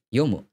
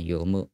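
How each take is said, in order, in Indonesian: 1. Nadanya mulai tinggi lalu turun di mu. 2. Nadanya mulai rendah, bukan tinggi. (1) "Yo-nya itu awalnya tinggi terus rendah turun ke di mu-nya" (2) "bukan yomu"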